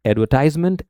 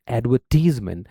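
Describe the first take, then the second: First: एडवर्टाइजमेंट with टाइज, the long i sound; British advertisement. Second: एडवर्टीजमेंट with टीज, the ee sound, a bit softer; American advertisement. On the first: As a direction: say एडवर्टाइजमेंट the British way, ad-ver-TIZE-ment. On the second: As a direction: say एडवर्टीजमेंट the American way, ad-ver-TEEZ-ment. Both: Shown as a demonstration. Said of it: "टाइज, टीज".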